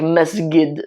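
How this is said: The middle consonant is a hard g sound. The speaker calls it wrong. "you'd make it like masjid, the Egyptians"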